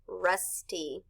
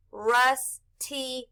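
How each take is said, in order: First: Said in the usual way. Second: "rusty" stretched, sounds joined; blended slowly. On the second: Shown as a demonstration. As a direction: draw out "rusty" while blending. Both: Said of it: "R, u, s, rus".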